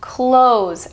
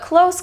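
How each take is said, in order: First: The word ends with a buzzing z sound. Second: The word ends with a hissing s sound. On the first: To shut something. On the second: Near to something.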